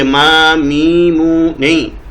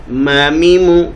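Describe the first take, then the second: First: ما میمو stretched long on ما; drawn-out wrong reading. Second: ما میمو quick with short vowels; short correct reading. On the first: Teacher showing the wrong lengthened reading. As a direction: drag ما میمو slowly as the mistake. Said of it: "اس کو یوں نہیں پڑھیں گے". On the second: Teacher giving the correct short reading to students. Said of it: "بلکہ اس کو جو پڑھیں گے". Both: Shown as a demonstration.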